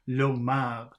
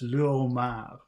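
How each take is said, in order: First: The article's vowel is dropped and linked on. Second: The article's vowel is kept as a separate syllable. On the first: The speaker calls it wrong. "If it were pronounced like the first one, it would be l'homard, but it's not" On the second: The speaker calls it right. "It's le homard instead of l'homard"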